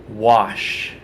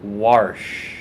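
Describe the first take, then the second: First: "Wash" with no r; plain wash. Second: "wash" with an r put in; East Coast pronunciation. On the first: Reading the word list to viewers, "Wash" without any r. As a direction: say "Wash" as "wahsh". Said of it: "like you're washing your clothes". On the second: Mimicking East Coast people, "wash" said as "warsh". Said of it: "a lot of people there say". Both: Shown as a demonstration.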